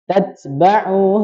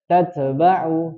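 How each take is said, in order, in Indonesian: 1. t dilepas hanya dengan hembusan nafas. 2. t dipantulkan dengan lepasan yang bergema. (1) "tapi dilepaskan saja" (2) "Tat jangan dipantulkan"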